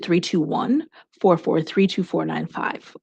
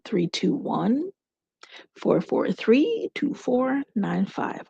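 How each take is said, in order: First: The number is said at normal speed. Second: The number is said slowly.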